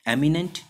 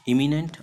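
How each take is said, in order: First: एमिनेंट said with an open "e" at the start, raised and rising; एमिनेंट with an "eh" opening, to set against the other word; एमिनेंट stressed "EH-mi-nent", rising at the end; eminent with E. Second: इमिनेंट said with a short "i" at the start, raised and rising; इमिनेंट with an "ih" opening, set against एमिनेंट; इमिनेंट stressed "IH-mi-nent", rising at the end; imminent with I. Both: Shown as a demonstration. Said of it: "तो ये sorry इमिनेंट है".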